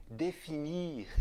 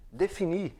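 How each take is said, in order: First: "definir" à francesa, mais baixo, sem o r final; pronúncia francesa. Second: Said in the usual way. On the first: Shown as a demonstration. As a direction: diga "definir" como um francês. ("definir" em francês) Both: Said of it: "adaptaçõezinhas".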